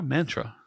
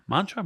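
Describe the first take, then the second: First: "Mantra" with the flat 'a' of man; short-A mantra. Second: "Mantra" with a broad 'ah' first vowel; long-A mantra. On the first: Comparing ways to say mantra, "Mantra" as MAN-truh. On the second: Trying out how to say mantra, "Mantra" as MAHN-truh. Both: Shown as a demonstration. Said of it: "The mantra".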